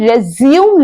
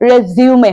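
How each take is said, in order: First: The word ends on the m sound. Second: The word ends with an extra 'ay' sound. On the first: The speaker calls it wrong. "ये रेज्यूम नहीं" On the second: The speaker calls it right. "रेज्यूमे होता है"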